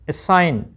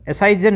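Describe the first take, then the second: First: No g sound is pronounced before the n. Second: A g-like sound is pronounced before the n. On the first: The speaker calls it right. "जी silent रहता है" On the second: The speaker calls it wrong. "एसाइजन नहीं"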